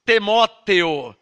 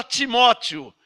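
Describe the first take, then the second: First: "Timóteo" as slow "Te-mó-te-o"; archaic pronunciation. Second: Said in the usual way. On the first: Shown as a demonstration. Preacher quoting the old version, "Timóteo" said slowly as "Temóteo". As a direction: open "Timóteo" into E sounds, "Temóteo", syllable by syllable. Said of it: "Essa Bíblia fala". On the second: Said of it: "A nossa Bíblia fala".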